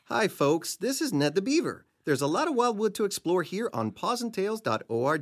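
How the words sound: It is read expressively, with feeling.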